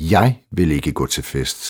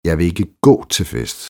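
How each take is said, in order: First: The stress falls on the word jeg. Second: The stress falls on the word gå. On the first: The speaker won't go, but the listener might. "Men måske vil du" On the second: The speaker won't walk but could go another way. "Men vi kan jo cykle derhen"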